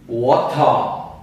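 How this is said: It is said with a British accent. "Britânico"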